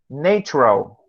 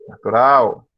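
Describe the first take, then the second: First: Natural said the English way, like netchural; English Natural, first syllable stressed; English pronunciation. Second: Said in the usual way. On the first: Shown as a demonstration. Teacher contrasting English Natural with Portuguese. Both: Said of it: "Em português".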